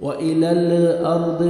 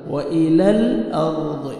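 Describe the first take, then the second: First: "व इलल अर्द" slowly, with lax blurred vowels; wrong majhul reading. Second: "व इलल अर्द" slowly, with clear exact vowels; correct maruf reading. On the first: Teacher showing the mistake, majhul "व इलल अर्द". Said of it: "व इलल अर्द गलत". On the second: Teacher correcting students, slow clear "व इलल अर्द". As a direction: hold the l steady and keep vowels pure in "व इलल अर्द". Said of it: "व इलल मजहूल पढ़ते हैं". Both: Shown as a demonstration.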